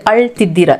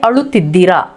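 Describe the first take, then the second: First: The 'u' vowel after 'al' is skipped. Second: The 'u' vowel after 'al' is pronounced.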